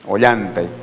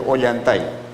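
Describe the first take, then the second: First: The stress is on the second-to-last syllable. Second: The stress is on the final syllable. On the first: The speaker calls it right. "como tú indicas correctamente" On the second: The speaker calls it wrong. "Perdón, perdón, me estoy contradiciendo"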